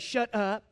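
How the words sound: It is said mildly and nicely. "I didn't just say, shut up. You know, nice"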